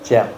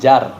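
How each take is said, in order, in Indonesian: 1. Vokalnya bunyi 'e'. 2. Vokalnya bunyi 'a' terbuka. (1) "Kalau orang Jawa jer" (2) "Kalau kita di sini nyebutnya jar"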